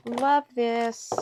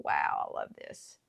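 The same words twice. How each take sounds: First: Higher, louder gushing repeat; excited. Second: Breathless whisper, much lower; whispered awe. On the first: Crafter admiring her stamped circle, excited gush. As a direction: burst out with delight. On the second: Crafter admiring her stamped circle, awed whisper. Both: Real, not acted.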